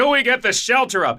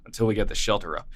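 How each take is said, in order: First: The line is screamed loudly. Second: The line is said in a plain, flat voice. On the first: The speaker calls it wrong. "It's screamed" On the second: The speaker calls it right. "in the normal, like, theatrical versions"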